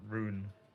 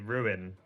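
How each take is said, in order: First: The word is said with one syllable. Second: The word is said with two syllables. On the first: This is another person's way. The speaker calls it wrong. "not rune" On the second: This is the speaker's own usual way. The speaker calls it right. "So I would say ruin"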